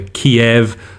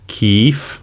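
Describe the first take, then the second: First: The name is said in its Russian form. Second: The name is said in its Ukrainian form. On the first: This is the older form, no longer used. The speaker calls it wrong. "it's no longer Kiev" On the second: This is the form now used in Western media. The speaker calls it right. "the Ukrainian version, which is Kyiv"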